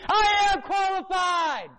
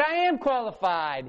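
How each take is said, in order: First: High, slow triumphant yell; high, drawn-out yell of I am qualified; shouted. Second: Said in the usual way. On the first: Retold or imitated. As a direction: shout it out like a victory. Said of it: "You better yell it". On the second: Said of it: "you better say it".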